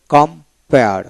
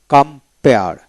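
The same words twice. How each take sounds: The two takes are said the same way.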